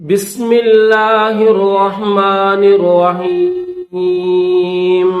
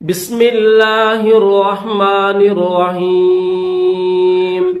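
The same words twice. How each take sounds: The two takes are said the same way.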